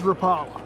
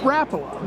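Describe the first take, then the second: First: It uses the Southern regional pronunciation. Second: It uses the official brand pronunciation. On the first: This is how locals said it growing up. "growing up in Arkansas, it was" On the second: This is how the company says it. "now that I work with them, it's"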